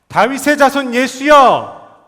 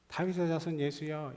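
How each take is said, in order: First: It is shouted loudly and desperately. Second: It is said in a restrained, quieter voice.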